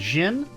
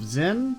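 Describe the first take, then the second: First: The name begins with a hard J sound. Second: The name begins with a soft Z sound. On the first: "you'd probably pronounce it like a like a harsher G" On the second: "instead of Zen"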